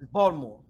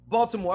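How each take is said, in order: First: The t sound is dropped or softened. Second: The t sound is clearly pronounced. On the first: The speaker calls it right. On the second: The speaker calls it wrong.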